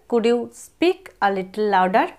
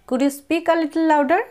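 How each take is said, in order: First: Slower repeat. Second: Slow, careful model sentence; slow model phrase. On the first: Teacher repeating the phrase slower for students. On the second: Teacher modelling an English phrase slowly. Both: Shown as a demonstration. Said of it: "ইংরেজিতে এইভাবে বলা যায়".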